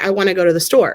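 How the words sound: The words flow together smoothly.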